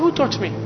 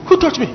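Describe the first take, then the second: First: It is said in a plain, smooth way. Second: It is said in a dramatic, theatrical way.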